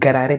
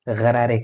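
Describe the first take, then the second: First: The first sound is a hard g. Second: The first sound is a throaty gh. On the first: The speaker calls it wrong. "हम लोग गरारे नहीं करते" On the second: The speaker calls it right. "गरारे करते हैं"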